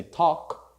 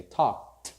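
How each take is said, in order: First: "talk" with no L, ending on K; silent L talk. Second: "talked" with no L, ending K plus T; silent L talked. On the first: Teacher contrasts present with past, silent L talk. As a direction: say "talk" as "tawk", present tense. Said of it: "we do not pronounce the L". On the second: Teacher contrasts past with present, silent L talked. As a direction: say "talked" as "tawkt", one syllable. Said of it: "in past we say talked". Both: Shown as a demonstration.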